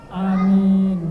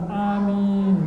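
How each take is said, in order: The two takes are said the same way.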